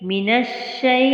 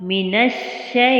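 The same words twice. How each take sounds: Both takes have the same delivery.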